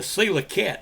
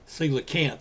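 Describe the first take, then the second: First: The word ends with a short cat sound. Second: The word ends with a final nth sound. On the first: The speaker calls it wrong. "I kind of changed the pronunciation of the word to to coelacat" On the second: The speaker calls it right. "Coelacanth is the way it's supposed to be pronounced"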